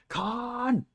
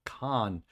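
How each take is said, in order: First: High, drawn-out movie scream of Khan; Khan yell. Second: Said in the usual way. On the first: Pretend. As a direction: bellow the name like a furious villain. Echoing the famous Khan yell.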